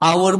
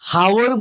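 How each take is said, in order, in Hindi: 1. शब्द की शुरुआत स्वर ध्वनि से होती है। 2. शब्द की शुरुआत "h" ध्वनि से होती है। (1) "আৱাৰ বুলি কৈছো" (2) "হাৱাৰ বুলিতো আমি নকওঁ"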